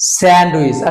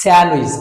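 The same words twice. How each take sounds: First: A d sound is heard after the n. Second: No d sound is heard after the n. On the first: The speaker calls it wrong. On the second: The speaker calls it right.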